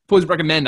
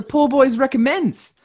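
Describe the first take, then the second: First: Recommend said with no final s; Recommend, dropping the plural s; corrected name. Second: Recommends said with a final s; the show name ending Recommends, plural s on the end; name with wrong plural. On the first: Correcting his podcast's name to Recommend, no s. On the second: Plugging his other podcast, says Recommends with an s. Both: Real, not acted. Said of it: "I should say, no plural there".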